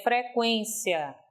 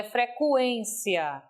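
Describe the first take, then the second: First: "frequência" slowly, with kwen as one syllable; unstressed U in frequência. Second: "frequência" with a separate, drawn-out CU, fre-CU-en-cia; stressed U in frequência. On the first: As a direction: glide the U of "frequência" lightly into the E. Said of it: "nesse caso você tem uma sílaba átona". ("frequência" com o U átono, fre-QUÊN-cia) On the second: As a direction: lean slowly on the U of "frequência". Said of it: "não é frequência". ("frequência" com o U tônico, separado do E) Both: Shown as a demonstration.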